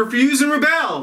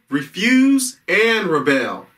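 First: Said in the usual way. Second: "refuse and rebel" slowly, each word weighted; emphatic repeat. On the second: Shown as a demonstration. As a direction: spell out "refuse and rebel" at half pace.

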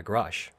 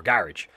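First: Garage said as guh-RAHZH; stress on second syllable. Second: Garage said as GARR-idge; stress on first syllable. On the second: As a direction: say garage to rhyme with carriage. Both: Shown as a demonstration. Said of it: "whatever way you wanna pronounce it".

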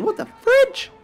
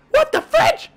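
First: Very high, rising squeak on fridge; startled squeak. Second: Very high, punch on what; high shocked yelp. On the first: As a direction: yelp it out in shock, voice jumping way up. Startled by something in game. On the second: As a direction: hit what hard, way up in the voice. Repeats the startled exclamation. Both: Real, not acted.

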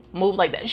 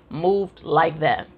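First: Said in the usual way. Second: Slow emphatic. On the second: Shown as a demonstration.

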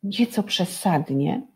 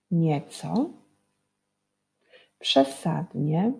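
First: Said in the usual way. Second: "nieco, przesadnie" said slowly, word by word with rising tunes; slow teacher emphasis; slow clear reading. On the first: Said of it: "A w tym wierszyku". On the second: Shown as a demonstration. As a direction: draw out "nieco, przesadnie" for the children. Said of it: "podkreślone wyrazy".

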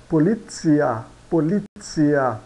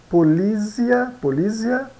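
First: POLIZIA with TS, "po-lit-SEE-a"; Italian pronunciation. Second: POLIZIA with a buzzing Z, "po-LEE-zia"; higher polizia with a plain Z; read as spelt. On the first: Teacher models Italian, Z in polizia as TS. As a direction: turn the Z of polizia into TS. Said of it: "Z é pronunciado como T S". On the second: Teacher shows learners the written word, plain Z. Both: Shown as a demonstration.

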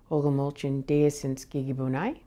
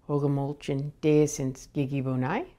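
Both takes have the same delivery.

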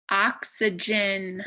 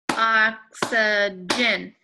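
First: Said in the usual way. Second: Ox-y-gen slowly, each syllable louder and separate; slow syllable clap. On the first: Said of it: "try saying this word out loud". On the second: Shown as a demonstration. Teacher slowly clapping Oxygen for the class. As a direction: stretch Oxygen out beat by beat. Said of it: "clap it out".

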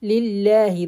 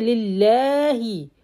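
First: Lillahi short, no stretch after the lam; unstretched Lillahi. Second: Lillahi with the lam drawn out; wrong stretched lam. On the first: Teacher modelling correct Lillahi. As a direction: say Lillahi crisply, no lengthening. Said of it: "I don't have any stretch here". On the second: Teacher demonstrating the stretched lam mistake. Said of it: "Don't say lillahi". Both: Shown as a demonstration.

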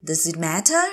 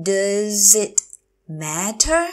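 First: Said in the usual way. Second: Drawn-out "Does it", pause, then "matter"; slow teacher model of "Does it matter"; slow, broken up. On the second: Shown as a demonstration. Teacher repeats phrase slowly.

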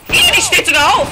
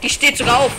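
First: High, loud shriek of disgusted fright; alarmed squeal. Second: Said in the usual way. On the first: Real, not acted. Gamer watches the zombie rise, high alarmed squeal.

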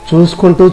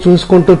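No difference in how they are said.

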